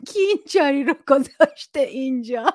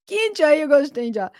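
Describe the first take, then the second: First: Laughing through a put-on grumpy dad line; half-laughing, imitate a huffy father; mock annoyed dad. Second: Higher, louder, very fast irritated father; rapid mock dad grumble. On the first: Quoting a listener's dad about the tea, laughing mock grumble. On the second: Host re-acts the father's tea complaint, fast mock irritation. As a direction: rattle it off like a fussy dad blaming everyone.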